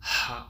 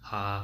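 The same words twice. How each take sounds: First: A hollow h with strong audible airflow. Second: A plain h with no extra airflow. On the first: The speaker calls it right. "இதில் வந்து ஹா ஹா அப்படின்னு இருக்கும்" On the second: The speaker calls it wrong. "அதோட வந்து ஒரு ஏர் சவுண்டு இருக்காது, வெறும் ஹா"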